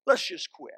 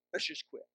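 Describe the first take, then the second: First: Let's raised and pushed; blunt firm Let's just quit; firm retold ultimatum. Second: Quiet repeat. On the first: Counselor telling the husband, blunt and firm. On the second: Retold or imitated. Counselor repeating it to the husband, quiet and final. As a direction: drop the second Let's just quit to a hush. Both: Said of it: "I said to him".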